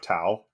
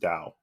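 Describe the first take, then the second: First: The word begins with a T sound. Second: The word begins with a D sound. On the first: "T A O" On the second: "but you actually pronounce it as Dao"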